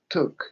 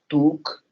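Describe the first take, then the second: First: The vowel sounds like a short uh. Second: The vowel sounds like a Spanish u. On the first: The speaker calls it right. "hace like took" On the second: The speaker calls it wrong. "yo no digo took"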